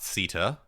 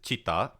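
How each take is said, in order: First: The word begins with an s sound. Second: The word begins with a ch sound. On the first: The speaker calls it wrong. "not sita, as he mispronounced" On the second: The speaker calls it right. "It is pronounced chitta"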